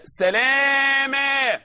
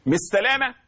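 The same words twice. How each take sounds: First: Higher, very slow سلاما with a long alif; correct pause form. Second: سلامة ending in ة, lightly; wrong form. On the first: Teacher corrects to سلاما, high and slow. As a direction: end سلاما on a clear alif. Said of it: "لا، سلاما". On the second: Teacher shows the wrong reading سلامة. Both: Shown as a demonstration.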